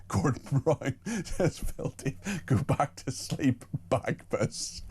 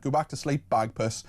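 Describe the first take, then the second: First: Real giggles, words slowed and softening; laughing while reading. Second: Said in the usual way. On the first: Real, not acted. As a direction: try to read it out through helpless laughter. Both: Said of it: "I'm still laughing at that".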